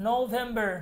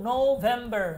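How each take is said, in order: Both takes have the same delivery.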